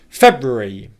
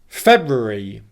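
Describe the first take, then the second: No difference in how they are said.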